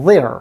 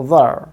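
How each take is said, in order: First: THERE with a full e vowel plus R; American 'there', strong vowel and r ending; American strong form. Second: THERE reduced to schwa plus R; weak form. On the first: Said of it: "American pronunciation হচ্ছে গিয়ে". ('there' American জোরালো রূপে, এ আর র ধ্বনি) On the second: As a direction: say 'there' as weak 'ther', with a schwa. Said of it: "উইক ফর্মে উচ্চারণ হবে". ('there' দুর্বল রূপে, শোয়া দিয়ে) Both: Shown as a demonstration.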